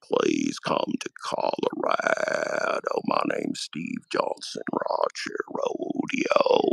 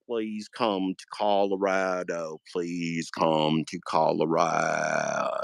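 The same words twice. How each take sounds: First: Very low, slow, croaking voice; Steve Johnson impression. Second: Low, slow drawn-out plea. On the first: Mock podcaster's final plug, very low and slow. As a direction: drag it out deep and slow like a dying drawl. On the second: Retold or imitated. Mock podcaster begging viewers, low and slow. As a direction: stretch the invite lower and slower each time. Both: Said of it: "that was my Steve Johnson impression".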